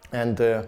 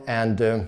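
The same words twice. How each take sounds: The two takes are said the same way.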